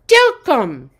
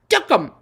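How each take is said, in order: First: The name is said slowly. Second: The name is said at normal speed.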